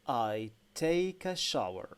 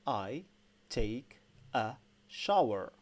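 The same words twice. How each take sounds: First: It is said at a quicker pace. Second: It is said at a normal, slower pace.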